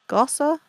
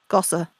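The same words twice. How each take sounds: First: Gossa asked with a rising tune; Gossa, unsure and asking; questioning the name. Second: Gossa said as a flat statement with a falling tune; Gossa, a tentative guess said flatly; trying the name. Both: Real, not acted. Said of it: "Angela Gossa, possibly?".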